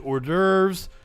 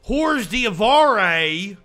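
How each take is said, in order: First: It is said in a plain, neutral accent. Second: It is said in an exaggerated Appalachian accent.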